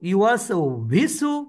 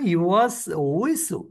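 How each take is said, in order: First: The second word starts with a v sound. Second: The second word starts with a w sound. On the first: The speaker calls it wrong. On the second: The speaker calls it right.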